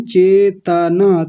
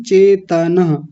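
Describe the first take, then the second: First: Drawn-out faulty चेतना; slowed wrong form. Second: चेतना said slowly, full त; slow clear चेतना, full त; full t sound. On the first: Teacher imitates the mistaken चेतना, slowly. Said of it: "तब मैंने बोला था चेतना नहीं". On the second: Teacher models the correct full t, slowly. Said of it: "तकार को पूरा रखेंगे". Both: Shown as a demonstration.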